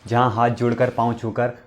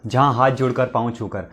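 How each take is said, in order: Both takes have the same delivery.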